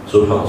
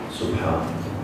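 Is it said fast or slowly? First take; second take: fast; slowly. First: It is said quickly and hurriedly. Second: It is said calmly and slowly.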